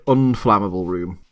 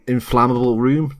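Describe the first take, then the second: First: "unflammable" with the "un" picked out; stress on UN-. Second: Said in the usual way. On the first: Shown as a demonstration. Correcting his own word choice, stress on the "un" in "unflammable". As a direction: lean on the first syllable of "unflammable". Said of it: "not an inflammable, like, an". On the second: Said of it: "not an inflammable".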